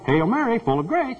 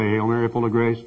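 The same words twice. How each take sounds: First: It is said in a showy, put-on announcer voice. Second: It is said in a plain, sincere natural voice. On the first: The speaker calls it wrong. "Don't go to sound like a stewardess on American Airlines" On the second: The speaker calls it right. "You say that right"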